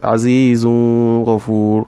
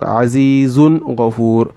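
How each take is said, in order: First: The noon sound is hidden in the next sound. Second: The noon sound is pronounced clearly and distinctly. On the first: The speaker calls it wrong. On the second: The speaker calls it right.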